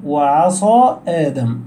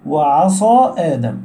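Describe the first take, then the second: Both takes have the same delivery.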